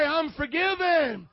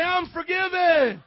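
First: Loud, drawn-out declaration for the congregation to repeat; rallying declaration. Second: Bigger, higher, drawn-out rallying shout; wide-awake shout. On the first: Preacher leads everybody to say it, loud rallying call. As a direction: call it out high, loud and slow. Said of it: "Everybody say". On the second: Preacher urges a sleepy church to say it, full wide-awake shout. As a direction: belt it out to wake the congregation. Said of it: "say it like you're up this morning". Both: Shown as a demonstration.

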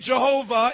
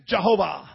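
First: Said in the usual way. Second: Jehovah in a put-on German accent, lower pitch; amateur German accent on Jehovah. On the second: Shown as a demonstration. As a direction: attempt a German pronunciation of Jehovah. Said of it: "say it with the German accent".

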